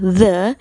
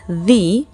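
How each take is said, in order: First: It is said in its form before consonant sounds. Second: It is said in its form before vowel sounds. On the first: "dibaca the jika kata setelahnya diawali dengan bunyi konsonan" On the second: "dibaca the jika kata setelahnya diawali dengan bunyi vokal"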